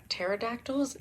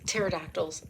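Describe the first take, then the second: First: Pterodactyls? with a questioning rise, hunting for the word; unsure guess. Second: Pterodactyls. firm and falling, word found; sure answer. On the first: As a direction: try out pterodactyls? as a doubtful guess. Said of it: "Ta-, ta-, pterodactyls?". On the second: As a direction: settle on Pterodactyls. with certainty. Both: Shown as a demonstration.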